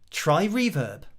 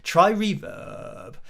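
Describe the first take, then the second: First: The voice stays clear through the end. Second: The voice turns creaky at the end. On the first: The speaker calls it right. "saying it normally" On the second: The speaker calls it wrong. "he kind of goes try Reverb, and you can hardly hear the word because of the vocal fry"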